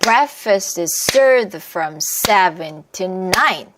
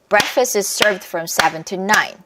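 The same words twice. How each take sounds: First: The sentence is said slowly. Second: The sentence is said quickly. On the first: "천천히 하면 이래요" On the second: "빠르게 말하고 싶어요"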